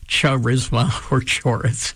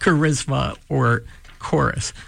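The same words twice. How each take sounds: First: The words begin with a 'ch' sound. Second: The words begin with a 'k' sound. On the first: The speaker calls it wrong. "We don't say charisma or chorus" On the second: The speaker calls it right. "We say charisma or chorus"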